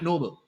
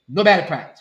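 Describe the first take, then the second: First: The word sounds like 'noble'. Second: The word does not sound like 'noble'. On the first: The speaker calls it wrong. "Not Nobel" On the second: The speaker calls it right. "Let me correct it"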